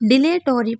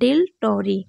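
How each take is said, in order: First: An extra vowel follows 'dil' before 'tori'. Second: No vowel comes between 'dil' and 'tori'. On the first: The speaker calls it wrong. "आप कहेंगे ma'am इसे तो डिले टोरी पढ़ना चाहिए था" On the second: The speaker calls it right. "ज़्यादातर ए silent रहता है"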